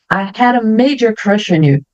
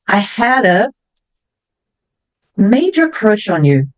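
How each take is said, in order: First: It is spoken at a slightly faster pace. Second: It is spoken at a slower, normal pace.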